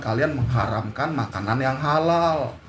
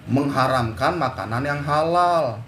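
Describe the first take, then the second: First: Said in the usual way. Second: "Mengharamkan makanan yang halal" repeated slowly, each word weighed, falling hard on "halal"; slowed, deliberate restatement landing on "halal"; slow emphatic repeat. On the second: Shown as a demonstration. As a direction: drive the point home, slower the second time.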